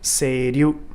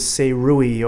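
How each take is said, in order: First: The last syllable sounds like 'ryu'. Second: The last syllable sounds like 'rui'. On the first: The speaker calls it right. "It is in fact Seiryu" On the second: The speaker calls it wrong. "now I've heard this pronounced as Seirui"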